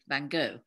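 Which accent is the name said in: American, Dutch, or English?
American. It is said the American English way. "in America, we say"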